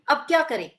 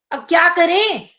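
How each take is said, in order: First: Asking what to do now, plain question tune; a simple puzzled question. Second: Louder and higher, stretching the words out; drawn out, different feeling. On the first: Teacher demonstrating the plain question reading. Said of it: "प्रश्नवाचक वाक्य बोला गया". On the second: Teacher demonstrating the same sentence in a drawn-out exasperated tone. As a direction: drag it out with exasperation. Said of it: "जैसे हम खींच कर कुछ अलग भाव में". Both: Shown as a demonstration.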